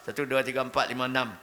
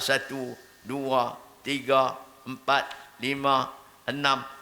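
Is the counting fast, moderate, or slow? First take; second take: fast; slow. First: The numbers are counted very quickly. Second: The numbers are counted very slowly. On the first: "Cepat sangat pula" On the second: "Lambat sangat pula"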